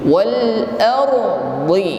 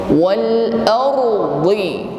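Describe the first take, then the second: Both takes have the same delivery.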